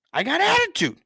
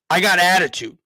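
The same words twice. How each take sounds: First: I got attitude jumps up high, sassy; high sassy repeat. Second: Said in the usual way. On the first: Shown as a demonstration. Host owning his attitude to viewers, high and sassy. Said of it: "repeats the line higher". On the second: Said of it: "repeats the line".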